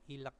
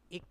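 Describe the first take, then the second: First: An L sound is heard before the K. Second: No L sound is heard before the K. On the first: The speaker calls it wrong. "Ini bacanya bukan ilek" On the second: The speaker calls it right. "tapi ik ya, yang dibaca itu adalah gioknya"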